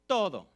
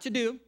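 First: The middle consonant is a soft th-like sound. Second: The middle consonant is a hard English d. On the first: The speaker calls it right. "softening that D. So it's more of a TH sound" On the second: The speaker calls it wrong. "Not to do"

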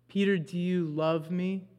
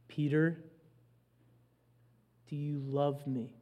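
First: It is said in a casual, ordinary tone. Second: It is said in a low, serious tone.

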